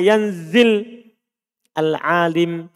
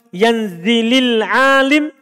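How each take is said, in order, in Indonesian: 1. Yanzil berakhir tanpa vokal sebelum kata berikutnya. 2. Vokal i menyambungkan yanzil dengan kata berikutnya. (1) "kalau dibaca pisah ... Sukun" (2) "saya baca kasih ke harokat kasroh ... supaya bisa disambung"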